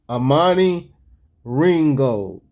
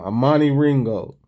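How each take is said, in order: First: The name is said at a slower pace. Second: The name is said at a faster pace.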